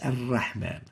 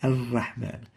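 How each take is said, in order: The two takes are said the same way.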